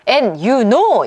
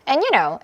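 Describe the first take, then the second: First: It is said slowly with weight on know. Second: It is said quickly and lightly, as a filler. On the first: The speaker calls it wrong. "이게 아니라 요 know는 내용어잖아요. 이러면서 이렇게 하면 안 되고" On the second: The speaker calls it right. "이렇게 굉장히 빠르게 훅훅 지나가면서 대충 처리하세요"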